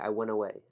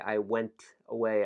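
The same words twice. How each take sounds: First: The sounds are reduced and linked together. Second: Each sound is pronounced carefully and separately. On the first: "notice how I reduce sound. I say I went away" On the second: "So I don't say I went away"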